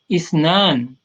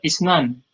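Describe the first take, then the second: First: The second vowel is drawn out long. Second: The second vowel is short. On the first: The speaker calls it right. "ditekan di ayun, karena di situ ada mad" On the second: The speaker calls it wrong. "jangan dibaca isnan"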